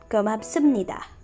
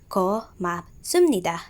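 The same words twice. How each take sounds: First: The word is said smoothly as one unit. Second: The word is split into separate syllables. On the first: "I repeat" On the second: "In syllables"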